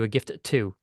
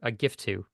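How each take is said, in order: First: Each T sound is said separately. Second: The T sounds are joined into one. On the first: "as opposed to a gift to" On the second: "this could have been a gift to"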